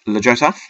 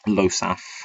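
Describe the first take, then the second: First: The silent letter is sounded in the name. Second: The silent letter is left out of the name. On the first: The speaker calls it wrong. "I've always said it like that because when I first saw the card, I didn't know what a silent letter was" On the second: The speaker calls it right. "I believe it is supposed to be"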